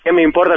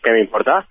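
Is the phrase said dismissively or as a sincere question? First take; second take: dismissive; sincere. First: It is said in a dismissive, uncaring way. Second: It is said as a sincere, curious question. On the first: The speaker does not care about it. "Como algo que no me importa" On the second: The speaker asks what matters to them. "O ¿qué es lo que me importa?"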